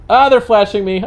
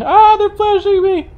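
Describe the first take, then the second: First: Higher-pitched mock alarm; mock complaint. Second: Very high, slow, loud mock wail; hammed-up wail. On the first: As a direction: complain loudly about the flashing. Complaining about oncoming headlights flashing. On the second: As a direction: stretch it into a squealing fake lament. Hamming up the headlight complaint.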